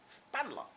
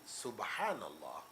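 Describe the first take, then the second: First: It is said quickly with syllables swallowed. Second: It is said slowly with every syllable clear.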